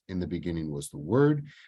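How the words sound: The stress falls on the word "Word". The Word itself is what matters most. "I'm emphasizing the Word"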